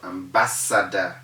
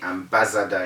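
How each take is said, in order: First: The middle consonant is a sharp s sound. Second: The middle consonant is a buzzing z sound. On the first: The speaker calls it right. "They must all have the original sound of an S" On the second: The speaker calls it wrong. "People say"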